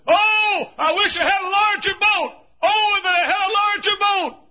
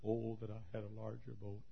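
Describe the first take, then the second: First: Put-on high, shouted lament from the old boatman; anguished cry. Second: Quiet lament. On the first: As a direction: wail it out across the water at full voice. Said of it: "he said". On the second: Acted. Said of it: "looked up and said".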